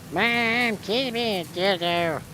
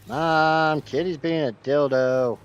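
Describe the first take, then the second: First: It is said in an imitated cartoon character voice. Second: It is said in an ordinary speaking voice. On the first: The speaker calls it right. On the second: The speaker calls it wrong.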